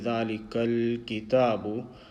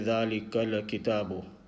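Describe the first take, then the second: First: The l is held with no vowel after it. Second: The l is followed by a short vowel. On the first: The speaker calls it right. "Instead of saying" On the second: The speaker calls it wrong. "many people will say ... they are actually vowelizing this lam sound"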